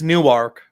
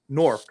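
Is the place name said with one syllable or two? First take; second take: two syllables; one syllable. First: The name is said with two syllables. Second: The name is said as one syllable. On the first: This is how outsiders say the name. The speaker calls it wrong. "anybody that's not from this area it says Newark" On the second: This is how locals say the name. The speaker calls it right. "It's spelled N O R K. That's basically how you pronounce it"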